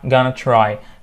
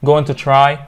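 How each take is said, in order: First: 'Going to' is blended into 'gonna'. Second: Each word of 'going to' is said in full.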